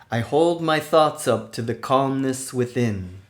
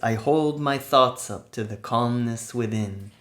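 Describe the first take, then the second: First: It is said loudly and energetically. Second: It is said at normal speaking loudness. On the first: "with a loud, energetic voice" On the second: "normal speaking voice"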